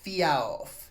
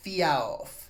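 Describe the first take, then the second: First: It opens with a clear f sound. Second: It opens with a clear f sound.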